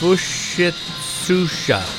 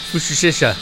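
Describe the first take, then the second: First: The name is said carefully with every sound clear. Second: The name is said quickly with sounds blurred. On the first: "Yeah, I think that's it" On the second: "I usually just say it quick"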